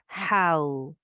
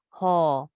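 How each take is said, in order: First: It glides from 'a' into a 'w' sound. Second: It ends on a short plain 'a' vowel. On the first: The speaker calls it right. "It's how" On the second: The speaker calls it wrong. "maybe you are pronouncing this ha. No, that's wrong"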